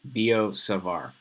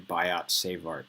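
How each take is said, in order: First: The final T sounds are silent. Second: The final T sounds are pronounced. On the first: The speaker calls it right. "you say it like there was no T" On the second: The speaker calls it wrong. "don't sound like a bozo and say"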